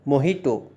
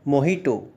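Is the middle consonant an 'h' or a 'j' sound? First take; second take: h; h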